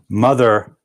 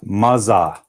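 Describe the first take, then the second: First: The middle consonant is a soft th sound. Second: The middle consonant is a buzzing z sound. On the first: The speaker calls it right. "that should be a T H sound" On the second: The speaker calls it wrong. "It ends up sounding like Z"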